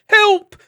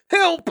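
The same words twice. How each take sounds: First: Much higher, loud hammed-up cry; mock yell. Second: High, loud fake cry for help; mock yell. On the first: Fleeing travelers calling for help, a loud fake yell. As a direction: shriek it in fake panic. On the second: Fleeing travelers calling again, loud fake yell. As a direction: cry out in pretend panic. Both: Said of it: "yelling aloud".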